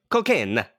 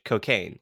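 First: COCAINE punched with a fake Italian accent; mock Italian accent. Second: Said in the usual way. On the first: Shown as a demonstration.

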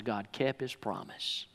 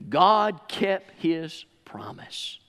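First: Said in the usual way. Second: "God kept his promise" slowly, word by word; "God kept his promise" drawn out, dropping to a hush at the end; slow emphatic repeat. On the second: Real, not acted.

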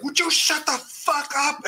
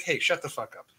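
First: Higher, slow mock furious outburst; imitating an angry yell. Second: Said in the usual way. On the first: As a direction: ham up the actor blowing his top. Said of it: "He is so angry". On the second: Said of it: "his line is just supposed to be like".

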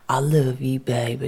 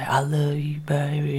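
First: Said in the usual way. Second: Whispered tender echo. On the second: Retold or imitated. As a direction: say it barely voiced. Repeating husband's quiet words.

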